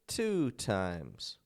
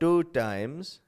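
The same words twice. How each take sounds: First: The T sounds are crisp, strong T's. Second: The T sounds soft, almost like a D. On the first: The speaker calls it right. "It's two times. In the American accent" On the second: The speaker calls it wrong. "It's not two times"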